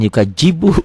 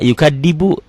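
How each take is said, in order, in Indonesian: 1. Huruf tengah dibunyikan seperti j. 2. Huruf tengah dibunyikan seperti d biasa. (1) "jangan yukajibu ya" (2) "Ada juga yukadibu, bukan yukadzibu"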